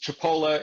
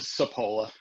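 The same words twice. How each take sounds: First: The name is said with a Sicilian pronunciation. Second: The name is said with an Americanized pronunciation. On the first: This is the original family pronunciation. "the Sicilian pronunciation is" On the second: This is the form it took in America. "It got Americanized to"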